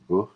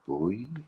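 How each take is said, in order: First: The word is clipped to a short buh. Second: The word keeps its full vowel, like boy. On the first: "if they're really broad, ... just buh for boy" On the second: "they say, you're all right, boy"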